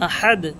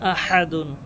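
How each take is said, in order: First: The word ends with a bare 'd' sound. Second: The word ends with a 'dun' syllable. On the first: The reciter stops at the end of the verse. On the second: The recitation continues without stopping.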